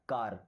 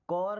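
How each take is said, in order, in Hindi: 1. स्वर एक खुली 'ah' ध्वनि है। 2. स्वर एक गोल 'aw' ध्वनि है। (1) "केवल बड़ा आ का मात्रा है ना" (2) "कौर नहीं बोलना है"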